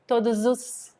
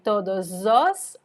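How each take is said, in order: First: The vowel after the d is reduced to u. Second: The vowel after the d is a full o.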